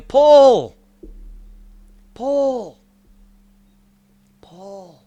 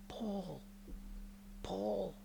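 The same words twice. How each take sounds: First: High loud call fading to a hush; echoing call that fades to near silence; shepherd calling out. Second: Hushed high call of Paul; faint calling of the name; soft distant calling. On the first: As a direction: call a lost sheep's name across the hills, then let it die away. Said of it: "my shepherd is out there going". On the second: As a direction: call the name gently from far away. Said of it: "is calling out to me". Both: Retold or imitated.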